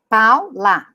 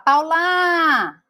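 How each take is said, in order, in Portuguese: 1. O acento está na primeira sílaba. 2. O acento está na última sílaba. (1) "A sílaba forte é o pau" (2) "Aí eu não posso falar Paula. O que que dá a impressão? Que é o lá"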